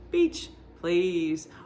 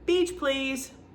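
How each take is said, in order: First: There is a pause after beach. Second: The words run together without a pause.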